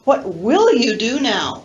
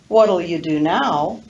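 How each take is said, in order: First: The word 'will' is full and stressed. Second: The word 'will' is reduced and unstressed.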